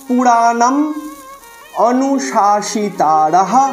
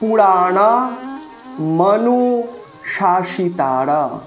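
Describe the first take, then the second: First: The m ends the first word, separated from the next. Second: The m is joined onto the start of the next word. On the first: The speaker calls it wrong. "শব্দের বোধ হয়ে যাচ্ছে কিন্তু পাঠে ভুল হয়ে যাচ্ছে" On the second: The speaker calls it right. "দেখুন পরিষ্কার করা আছে"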